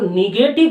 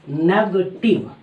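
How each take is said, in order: First: The first vowel sounds like 'i' in 'bit'. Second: The first vowel sounds like 'e' in 'bet'. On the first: Something is dark, blurred or minus. The speaker calls it wrong. "अंग्रेजी में आपको निगेटिव नहीं" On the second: Something denies or says no. The speaker calls it right. "बल्कि आपको कहना होगा नेगेटिव"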